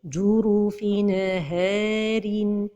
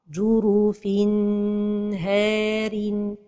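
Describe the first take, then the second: First: The N is released with a small bounce. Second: The N is held too long before H. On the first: "La première erreur, c'est al-qalqalah de an-noun de at-tanwin" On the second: "c'est de prolonger sans temps"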